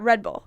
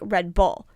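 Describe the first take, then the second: First: It is said with ordinary stress. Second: The stress is on Bull.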